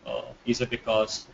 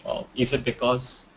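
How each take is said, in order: Both takes have the same delivery.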